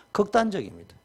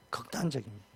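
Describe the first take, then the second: First: Said in the usual way. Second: Much softer, dropped echo of 극단적입니다; hushed second take of 극단적입니다; quiet repeat. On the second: Shown as a demonstration. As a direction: let 극단적입니다 fall away almost to a murmur.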